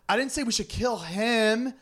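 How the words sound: The stress is on the word 'him'.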